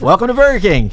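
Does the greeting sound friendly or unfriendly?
friendly. The greeting sounds warm, upbeat and friendly. The worker is glad to see the customers. The speaker calls it right.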